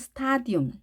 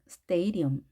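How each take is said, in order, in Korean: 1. 첫 번째 모음은 'ah' 소리입니다. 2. 첫 번째 모음은 'ay' 소리입니다. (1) "우리가 보통 스타디움, 스타디움이라고 한글로 표기하는데요. 아가 아니고" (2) "A입니다. 음이 아니라 엄"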